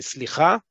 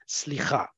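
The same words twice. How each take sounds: First: It is said in a forceful, emphatic way. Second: It is said in a mild, plain way.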